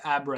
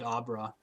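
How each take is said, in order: First: It is said with an American pronunciation. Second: It is said with a Swedish-style pronunciation. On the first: "the American way to say it" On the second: "I've always said Abra"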